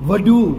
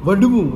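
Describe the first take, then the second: Both takes have the same delivery.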